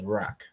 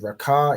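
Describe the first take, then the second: First: The word ends with a consonant sound. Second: The word ends with a final vowel sound. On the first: The speaker calls it right. "it says Rak" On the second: The speaker calls it wrong. "instead of saying Raka"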